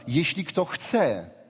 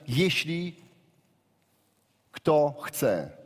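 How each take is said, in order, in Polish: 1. Słowo "chce" jest mocno zaakcentowane. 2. Słowo "chce" nie ma specjalnego akcentu.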